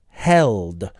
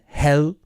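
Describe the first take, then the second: First: The final consonant sound is pronounced. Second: The final consonant sound is dropped. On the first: The speaker calls it right. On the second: The speaker calls it wrong.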